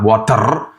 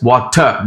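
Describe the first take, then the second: First: "water" with a heavily rolled final R; hard R. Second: "water" ending in "uh", with no R; soft UH ending. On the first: Teacher showing the way to avoid, trilled R ending "water". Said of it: "replace the R sound with a U H". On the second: Teacher showing the fix, soft R-less "water". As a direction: drop the R in "water", say "wat-uh". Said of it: "W A T E U H". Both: Shown as a demonstration.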